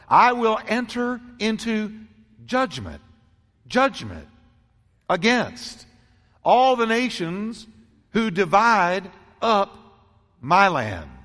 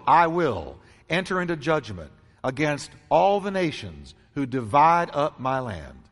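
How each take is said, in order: First: It is said slowly. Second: It is said at normal speed.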